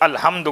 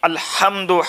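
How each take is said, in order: First: The h is a plain, light h. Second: The h is a harsh, throaty h. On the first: The meaning changes to all ruin. The speaker calls it wrong. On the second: It means all praise. The speaker calls it right.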